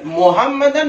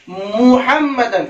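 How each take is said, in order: First: Quick मुहम्मदन said as 'Mohammadan'; hurried मुहम्मदन with an o; wrong pronunciation. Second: मुहम्मदन with a pure 'mu'; careful 'Mu-hammadan' for मुहम्मदन; correct pronunciation. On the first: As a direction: open मुहम्मदन with 'mo'. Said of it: "नहीं". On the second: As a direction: open मुहम्मदन on a long, clear u. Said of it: "मु, मो और मु दोनों में फर्क". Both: Shown as a demonstration.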